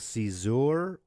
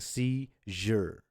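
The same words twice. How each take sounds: First: The middle consonant is not a zh sound. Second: The middle consonant is a zh sound. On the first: The speaker calls it wrong. "It's not a seizure" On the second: The speaker calls it right. "it's a C, j, j, j"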